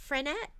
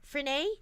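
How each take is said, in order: First: Frenette said with a sounded T at the end; unsure pronunciation. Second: Frenet said with a silent T, ending "-ay"; alternative pronunciation. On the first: Host guessing at a designer's surname, Frenette with a final T. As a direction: try "Frenette", ending on a hard T. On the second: Host guessing at a designer's surname, Frenet ending in "-ay". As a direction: try "Frenet" as French-style fre-NAY. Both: Shown as a demonstration. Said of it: "I don't know how we say that".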